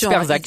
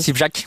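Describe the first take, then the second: First: The name begins with 'Sper' and has 'z'. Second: The name begins with 'Sip' and has 'ch'. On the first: This is one person's own way of saying the name. The speaker calls it wrong. "moi je dis Sperzak. Je suis le seul à le dire comme ça" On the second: This is how people usually say the name. The speaker calls it right. "Sipchak, on dit"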